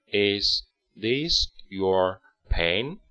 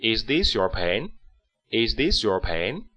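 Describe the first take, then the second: First: Each word of Is this your pen spaced out slowly for learners; slow model reading. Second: Is this your pen run together smoothly, still a bit slow; connected reading. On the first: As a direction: read it very slowly for the class to copy. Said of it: "跟我来读一遍". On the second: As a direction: join the words into one flowing question. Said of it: "连贯起来". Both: Shown as a demonstration.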